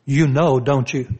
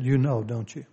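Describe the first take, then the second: First: Pointed accusation. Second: Softer, low and gentle; gentle question. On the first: Pastor shows the wrong way she said it, accusing. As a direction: throw it at him like a charge. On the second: Pastor shows how she really asked it, softly. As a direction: ask it softly, almost tenderly. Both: Shown as a demonstration. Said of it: "she didn't say it in that manner".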